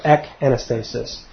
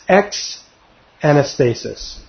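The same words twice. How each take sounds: First: "ek anastasis", first syllable ending in a hard k; "ek anastasis", the prefix cut to a plain k; pronounced with ek. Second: "ex anastasis", first syllable ending in a ks sound; "ex anastasis", the prefix said as eks; pronounced with ex. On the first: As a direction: say "ek" with no s before "anastasis". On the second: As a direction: say "ex" with a full x before "anastasis". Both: Shown as a demonstration. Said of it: "or ek anastasis".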